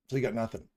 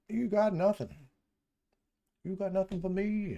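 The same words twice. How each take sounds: First: Said in the usual way. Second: Much higher mock-taunting voice; high teasing singsong. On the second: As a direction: tease the chart up high. Teasing the flat charts.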